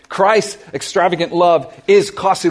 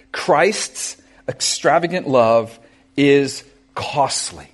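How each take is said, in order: First: Said in the usual way. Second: Slow, weighty delivery of the point; slow first statement. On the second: Shown as a demonstration. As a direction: let each word land slowly.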